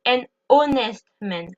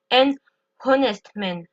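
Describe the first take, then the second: First: Honest starting straight on the vowel, no H; honest said as "ON-est"; silent H. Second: Honest with a breathed H at the start; honest mispronounced as "HON-est", H audible; H wrongly pronounced. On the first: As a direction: link an into honest, dropping the H. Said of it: "je ne prononce pas le H". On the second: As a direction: sound the silent H in honest, after a short pause. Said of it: "je ne dis pas". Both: Shown as a demonstration.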